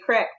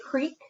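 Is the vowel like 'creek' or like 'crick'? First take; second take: crick; creek. First: It is said the southern Indiana way, 'crick'. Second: It is said the northern Indiana way, 'creek'.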